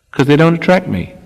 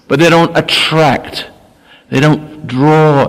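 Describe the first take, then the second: First: Said in the usual way. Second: "attract" and "draw" drawn out slowly and leaned on; slow each word down and press on "attract" and "draw"; slow stressed attract. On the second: Shown as a demonstration. Preacher to listeners, slow emphatic stress. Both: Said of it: "I emphasize the word".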